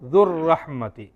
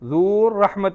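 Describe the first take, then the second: First: The first vowel is kept short. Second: The first vowel is held long. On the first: The speaker calls it right. "ആ ദാലിൻ്റെ ഹുറൂഫുൽ മദ്ദിനെ ഒഴിവാക്കും" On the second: The speaker calls it wrong. "ദൂർ റഹ്മത്തി എന്ന് പറയത്തില്ല"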